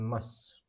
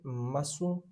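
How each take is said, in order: First: The final u vowel is dropped or whispered. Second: The final u vowel is fully pronounced. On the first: "spoken mas" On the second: "Written masu"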